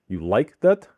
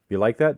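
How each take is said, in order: First: A high pitch lands on the questioned word. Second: It is said flat, as a plain statement. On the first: It asks whether the listener likes it. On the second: It states a fact.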